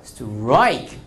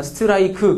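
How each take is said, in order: First: 스트라이크 as one syllable, 스트 almost silent, only aik stressed; English strike. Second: 스트라이크 said as five even Korean syllables, su-tu-ra-i-ku; Korean-style strike. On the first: Teacher demonstrates the English one-syllable strike. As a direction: clip 스트라이크 to a single beat on aik. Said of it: "그럼 영어로 해봐요". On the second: Teacher imitates the Korean way of saying strike. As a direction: give 스트라이크 every vowel, flat Korean style. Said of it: "우리나라 뭐 이렇게 말하잖아". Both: Shown as a demonstration.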